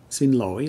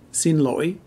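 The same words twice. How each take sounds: First: Xin lỗi with a gentle dip-and-rise on lỗi; softer Southern pronunciation. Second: Xin lỗi with lỗi rising high; Northern pronunciation. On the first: Teacher repeating excuse me in the south, a little softer. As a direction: ease into lỗi without a sharp break. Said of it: "a little softer". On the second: Teacher repeating excuse me in the north, Northern tone. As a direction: break lỗi and push it upward, Northern style. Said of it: "in the north, it's pronounced". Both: Shown as a demonstration.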